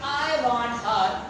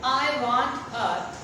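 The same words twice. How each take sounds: The two takes are said the same way.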